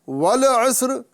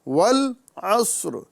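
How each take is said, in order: First: The L is released with an echoing bounce. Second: The L is held plain without a bounce. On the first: The speaker calls it wrong. "नहीं पढ़ना है" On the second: The speaker calls it right. "बल्कि"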